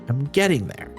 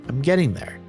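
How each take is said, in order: The two takes are said the same way.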